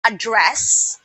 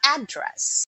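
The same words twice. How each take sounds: First: "address" as a verb, stressed on the second syllable. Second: "address" as a noun, stressed on the first syllable. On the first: Teacher giving the verb example, second-syllable stress on "address". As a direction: say "address" as a-DDRESS. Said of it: "and the verb address". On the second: Teacher giving another noun example, first-syllable stress on "address". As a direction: hit the start of "address", AD-dress. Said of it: "The noun". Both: Shown as a demonstration.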